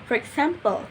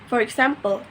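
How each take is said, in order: No difference in how they are said.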